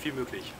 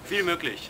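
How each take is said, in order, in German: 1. Es wird leiser gesagt. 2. Es wird lauter gesagt.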